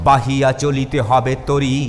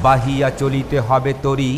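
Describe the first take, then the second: No difference in how they are said.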